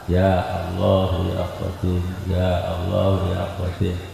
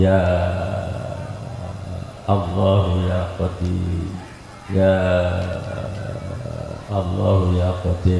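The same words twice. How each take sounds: First: The vowel of 'ya' is held only briefly. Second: The vowel of 'ya' is held very long. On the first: This follows the Makkah reading. "panjangnya cuma dua harokat" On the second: This follows the Madinah reading. "panjang enam harokat"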